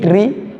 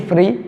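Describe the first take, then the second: First: The word begins with a t sound. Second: The word begins with an f sound. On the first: "ce n'est ni tri" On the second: "ni free"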